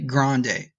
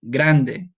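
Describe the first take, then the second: First: It is said with an American accent. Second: It is said with a Spanish accent.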